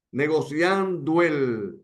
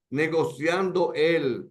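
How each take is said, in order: First: "Negociando el" run together, final "o" gliding into "el" as one syllable; linked sinalefa. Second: "negociando el" said slowly with "o" and "el" kept apart, no linking; syllables apart. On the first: Teacher showing the class the natural sinalefa, linked smoothly. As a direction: glide "negociando el" together as it really sounds. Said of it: "es que suena". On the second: Teacher showing the class what nobody says, slow and separated. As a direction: break "negociando" from "el" with a clear gap. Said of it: "nadie dice". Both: Shown as a demonstration.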